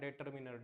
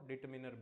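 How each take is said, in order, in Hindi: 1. पहला अक्षर 'deh' जैसा बोला जाता है। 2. पहला अक्षर 'dih' जैसा बोला जाता है। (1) "कई बोलते हैं ना डेटरमिनर, डेटरमिनर नहीं होता ये" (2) "क्या बोलते हैं इसको, डिटरमिनर"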